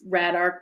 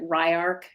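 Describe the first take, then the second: First: The word has a 'd' sound in the middle. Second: The word has no 'd' sound in the middle. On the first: This is how the spelling seems to read. The speaker calls it wrong. "It looks like it's Radark" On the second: This is how the name is actually said. The speaker calls it right. "you pronounce it Ryark"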